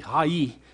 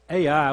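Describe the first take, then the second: First: The name is said the Hebrew way. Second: The name is said the English way. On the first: "Hai in Hebrew" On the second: "as we would pronounce it"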